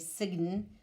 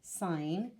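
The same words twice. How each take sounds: First: The G sound is pronounced in the word. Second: The G is silent in the word. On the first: The speaker calls it wrong. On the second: The speaker calls it right.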